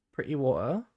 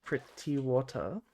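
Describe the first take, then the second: First: Broad British "Pretty water" with both Ts as glottal stops; British pre'y wo'uh, rising at the end. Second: "Pretty water" slow and softer, both Ts clearly sounded; slow, careful "Pretty water" with crisp Ts. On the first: Pretend. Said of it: "in the most British way I could". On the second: Shown as a demonstration. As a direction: enunciate the Ts in "Pretty water", taking your time. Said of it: "I go out of my way to not say".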